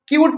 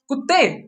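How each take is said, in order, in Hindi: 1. यह एक लंबी 'kyoo' ध्वनि से शुरू होता है। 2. यह एक छोटी 'kuh' ध्वनि से शुरू होता है। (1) "क्यूट पढ़ेंगे।" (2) "ऐसा नहीं, कुत्ते नहीं बोलते हैं।"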